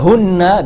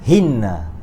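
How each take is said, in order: First: The first vowel is a 'u' sound. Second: The first vowel is an 'i' sound. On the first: The pronoun stands on its own. "The hunna" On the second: The pronoun follows a preposition with a lower vowel. "become hinna"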